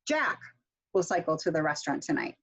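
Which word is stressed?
Jack. The stress is on Jack.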